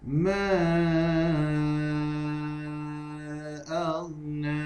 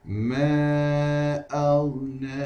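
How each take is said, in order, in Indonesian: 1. Huruf panjang ditahan selama lima harakat. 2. Huruf panjang ditahan selama dua harakat. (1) "bagi lima harakat" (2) "Dibacakan dengan dua harakat terlebih dahulu"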